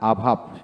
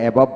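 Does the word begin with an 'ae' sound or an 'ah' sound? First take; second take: ah; ae. First: The first vowel is a short 'ah' sound. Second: The first vowel is an open 'ae' sound. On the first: The speaker calls it right. "এতে আকার উচ্চারিত হয় তা আকারটা অর্ধেক হবে" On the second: The speaker calls it wrong. "আমরা অ্যাভাব বলি না"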